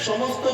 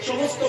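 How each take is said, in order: Both takes have the same delivery.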